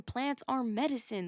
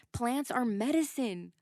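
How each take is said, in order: First: "are" pushed hard, then a falling close; stress on ARE. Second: First take, weight on "medicine", falling at the end; stating "Plants are medicine" with "medicine" hit; stress on medicine. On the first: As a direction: insist on "are" like it's undeniable. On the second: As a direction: land on "medicine" as the key word. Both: Shown as a demonstration. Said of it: "Let me say that again".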